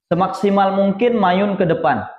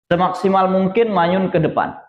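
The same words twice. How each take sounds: Both takes have the same delivery.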